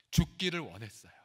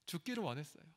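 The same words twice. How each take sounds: First: Said in the usual way. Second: 죽기를 said again much softer, falling; softer repeat. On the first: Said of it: "repeated for emphasis". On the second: Shown as a demonstration. Pastor echoing to congregation, 죽기를 said quietly. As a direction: drop to a hush on 죽기를 원했어요. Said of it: "repeated softer".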